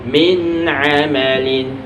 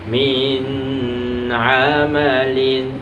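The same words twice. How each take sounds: First: The n sound is clear, not held. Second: The n sound is held before the next letter. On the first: The speaker calls it right. "tapi min amalin" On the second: The speaker calls it wrong. "tidak boleh dibaca min amalin"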